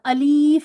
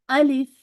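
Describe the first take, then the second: First: The second vowel is drawn out long. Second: The second vowel is kept short. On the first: The speaker calls it wrong. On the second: The speaker calls it right.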